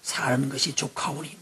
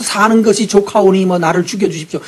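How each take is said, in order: First: Slow, soft, sighing "사는 것이 족하오니"; weary Elijah. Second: "사는 것이 족하오니" said louder, stressing "사는", falling; whiny Elijah. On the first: Elijah telling God he has had enough, slow and soft. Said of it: "한다는 소리가 뭐였어요?". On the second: Elijah begging God to take his life, louder mock whine. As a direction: complain it out, louder and mock-petulant. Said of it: "이런 소리 하면 안 되죠?". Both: Retold or imitated.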